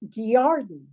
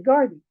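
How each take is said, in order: First: The word starts with a g followed by a y-glide. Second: The word starts with a plain g, no y-glide. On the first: This is how the old folks of the region said it. "it says Gyarden, G Y A R D E N" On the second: This is how people in town say it now. "we say garden"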